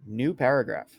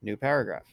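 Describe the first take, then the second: First: Dictating. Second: Spoken command to the computer; dictating. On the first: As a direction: call the command out to the computer. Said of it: "You can also do things like". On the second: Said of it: "And it creates a new paragraph". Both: Shown as a demonstration.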